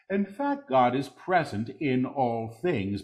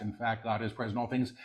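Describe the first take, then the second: First: Deliberate full-voice repeat; measured proclamation. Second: Quick, soft undertone; hushed preview. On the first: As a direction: proclaim it clearly, word by word. Same words repeated in full voice. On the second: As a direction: say it softly and rapidly before proclaiming it. Quick soft take before repeating aloud. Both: Real, not acted.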